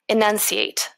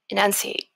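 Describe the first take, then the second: First: The final T is crisp and clear. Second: The final T is barely heard. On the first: The speaker calls it right. "Did you hear that T, the crisp T at the end?" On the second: The speaker calls it wrong. "The first way is not enunciated, which means I'm not stressing the consonants especially"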